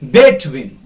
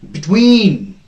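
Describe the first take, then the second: First: The stress is on the first syllable. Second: The stress is on the second syllable. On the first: The speaker calls it wrong. "You can't pronounce it as between. No, the first s- syllable is not stressed here" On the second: The speaker calls it right. "The second syllable is stressed"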